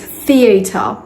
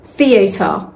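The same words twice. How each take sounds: First: It is said in a British accent. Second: The same.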